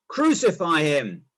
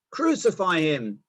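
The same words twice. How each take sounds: First: Slow, louder crowd cry; shouting louder. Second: Slow, firm demanding cry; shouting crowd. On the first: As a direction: push it harder than the first cry. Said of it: "they shouted all the louder". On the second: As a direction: drag out each word as a demand. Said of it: "they shouted". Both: A narrator's reading.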